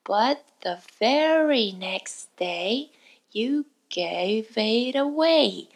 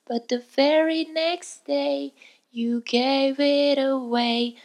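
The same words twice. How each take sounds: First: The phrase is said slowly and carefully. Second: The phrase is said at a medium speed. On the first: "最初はゆっくりと丁寧に" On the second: "徐々に早くしていって"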